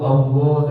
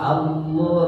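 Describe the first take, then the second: First: The opening vowel is heavy from the start. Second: The opening vowel is light, becoming heavy later. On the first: The speaker calls it wrong. "jangan Allah Allah dari awal tuh sudah tebal si hamzahnya" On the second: The speaker calls it right. "a-nya ke lamnya tipis dulu"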